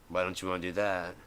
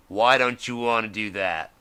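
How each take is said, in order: First: Said in the usual way. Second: Pressed again, louder, with stress on why; louder repeat. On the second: Shown as a demonstration. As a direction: push the question harder.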